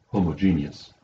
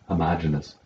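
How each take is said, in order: First: It is pronounced unlike the word homogenize. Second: It is pronounced like the word homogenize. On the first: The speaker calls it right. "This is the word homogeneous" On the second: The speaker calls it wrong. "I've had friends who call this word homogeneous, but you don't homogenize differential equations"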